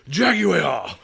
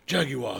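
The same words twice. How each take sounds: First: The word is drawn out much longer. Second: The word is said fairly short. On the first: "it gets longer" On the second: "first it's jaguar"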